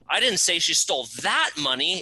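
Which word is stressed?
that. The word "that" is stressed. Different money was stolen. "It wasn't that money, it was a different bucket of money she stole"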